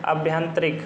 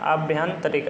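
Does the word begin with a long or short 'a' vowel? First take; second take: long; long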